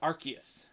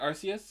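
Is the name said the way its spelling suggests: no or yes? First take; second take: no; yes. First: The name is not sounded out as spelled. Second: The name is sounded out just as spelled. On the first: This is the current pronunciation. The speaker calls it right. "they changed it to Arceus" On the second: This is the older pronunciation. The speaker calls it wrong. "did used to be Arceus, as that's how you it would sound it out normally"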